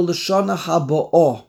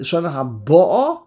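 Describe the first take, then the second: First: Haboah stressed on the final AH, falling tune; stress on end of haboah. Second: Haboah stressed on BO, ending in a rise; stress on first half of haboah. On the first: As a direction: push the weight onto the last syllable of haboah. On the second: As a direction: punch the BO in haboah, not the final syllable. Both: Shown as a demonstration. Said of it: "Where do you put the emphasis?".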